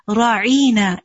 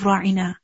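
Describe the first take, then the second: First: The word is said in a distorted pronunciation. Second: The word is said in its standard pronunciation. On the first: It mocks the listener as a shepherd. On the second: It politely asks for attention.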